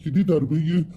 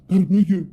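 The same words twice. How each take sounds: First: Said in the usual way. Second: تربيه said higher and louder; proud stress on تربيه. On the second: Acted. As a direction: hit تربيه with proud emphasis. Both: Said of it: "ايوه تربيه يا ابني".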